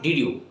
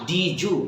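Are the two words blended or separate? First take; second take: separate; blended. First: The d and y are pronounced separately. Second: The d and y blend into a j sound. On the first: The speaker calls it wrong. "not did you" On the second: The speaker calls it right. "Just say did you"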